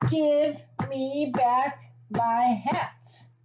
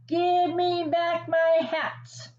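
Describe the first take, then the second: First: Slow, drawn-out mock fury; mock furious. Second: Higher, slow mock shout. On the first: Hat seller stamping his feet at the monkeys, slow mock fury. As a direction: stretch it out like a stamping tantrum. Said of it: "The man was furious". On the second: Hat seller shouting up at the monkeys, mildly hammed. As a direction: call up to the trees, hammed up but gentle. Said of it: "put his hands to his mouth and shouted".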